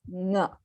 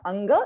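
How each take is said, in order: First: It starts directly with the back nasal. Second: It starts with a vowel before the nasal. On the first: The speaker calls it right. "it's nga" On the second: The speaker calls it wrong. "It's not anga. It's anga minus the initial a"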